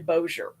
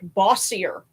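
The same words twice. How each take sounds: First: The name is pronounced the local way. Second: The name is pronounced the way it is spelled. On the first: The speaker calls it right. "but it's actually Bossier" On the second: The speaker calls it wrong. "it looks like Bossier when you see it"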